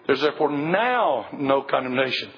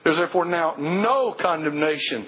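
First: The word no carries no special stress. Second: The word no is strongly stressed.

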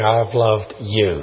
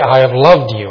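First: The stress is on the word you. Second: The stress is on the word loved. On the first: "just emphasize each word" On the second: "I cherish you"

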